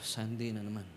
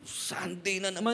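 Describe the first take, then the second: First: The phrase is said with bored reluctance. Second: The phrase is said with eager excitement. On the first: The speaker dreads Sunday coming again. The speaker calls it wrong. "Hindi yung tipong" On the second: The speaker looks forward to Sunday. The speaker calls it right. "Parehas lang yung sinabi mo pero iba't ibang ah, manner na pagkakasabi"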